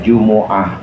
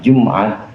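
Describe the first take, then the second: First: The m is followed by an u vowel. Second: The m has no vowel after it. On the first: "dengan dhammahnya mim" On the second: "mimnya sukun"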